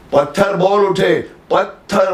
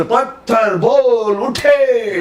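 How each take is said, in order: First: Slow, higher, बोल pressed; weight on बोल, then उठे falls; teacher models बोल as the key word; stress on बोल. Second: Very slow, much higher, उठे stretched; mock announcer leaning on उठे; hammed-up reading that stresses उठे; announcer's wrong stress. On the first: Retold or imitated. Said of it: "तो उसको समझ में आएगा". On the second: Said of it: "वो announcer".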